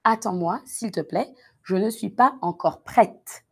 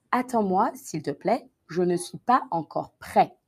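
First: Prête said with the T clearly sounded, prɛt; teacher models prête ending on a clear T; feminine prête. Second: Prêt said with no final T sound, prɛ; teacher models prêt ending on the open vowel, no T; masculine prêt. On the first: Teacher demonstrating the feminine ending: prête with audible T. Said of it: "Au féminin, on entend le E". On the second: Teacher demonstrating the masculine ending: prêt without T. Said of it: "Au masculin, ça serait". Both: Shown as a demonstration.

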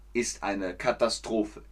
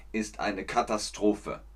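The two takes are said the same way.

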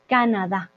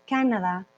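First: "Canadá" stressed on the last A; correct final stress. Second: "Canadá" with first-syllable stress; wrong stress. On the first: Teacher showing what we do say, "Canadá" stressed on the final syllable. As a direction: land firmly on DÁ in "Canadá". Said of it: "Esa tilde en la A". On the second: Teacher showing what we don't say, "Canadá" stressed early. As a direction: put the weight on CA in "Canadá". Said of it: "no, decimos Canadá". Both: Shown as a demonstration.

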